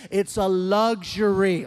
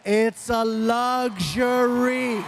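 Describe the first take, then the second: First: Slow, weighted LUXURY; firm emphasis. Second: Very slow, stretched "luxury"; exaggerated shout. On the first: Retold or imitated. Dad telling teenager about phones, slow stress on "luxury". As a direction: lean on "luxury", drawing it out. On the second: Dad lecturing teenager, drawn-out shout on "luxury". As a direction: holler it, dragging out every syllable.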